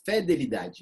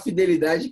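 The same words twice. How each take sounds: First: The first syllable is said with an open 'feh' vowel. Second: The first syllable is said with an 'ee' vowel. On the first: The speaker calls it wrong. "devia chamar, falar fidelidade... parece que fede" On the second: The speaker calls it right. "é melhor falar fidelidade"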